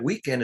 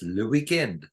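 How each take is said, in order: First: Said in the usual way. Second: "le weekend" in a light French accent. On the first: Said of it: "the way you said weekend". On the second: Shown as a demonstration. Telling how French said weekend years ago, French accent. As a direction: say "le weekend" as a French speaker would. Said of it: "pronounce it as if you have a French accent".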